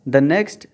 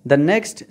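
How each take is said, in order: No difference in how they are said.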